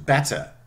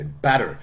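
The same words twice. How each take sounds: First: The t is a clear released t sound. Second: The t is a soft flap between vowels. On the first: "which is still a lot closer to better" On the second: "Because American, you would say better"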